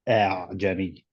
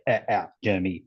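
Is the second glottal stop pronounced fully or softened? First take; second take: softened; fully. First: The second glottal stop is softened and eased. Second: The second glottal stop is pronounced fully and sharply. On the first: The speaker calls it right. "like a eh, but softer" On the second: The speaker calls it wrong. "You don't say أعجمي"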